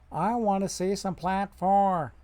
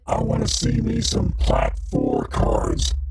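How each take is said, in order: First: It is said in his normal voice. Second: It is said in a put-on voice.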